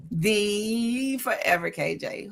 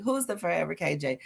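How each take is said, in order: First: "the Forever K J" drawn out slowly and dramatically; grand title reveal. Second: Said in the usual way. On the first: Shown as a demonstration. Introducing herself to the group, slow dramatic reveal. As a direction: unveil "the Forever K J" like a stage name, slowly. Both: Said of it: "And I am the [name]".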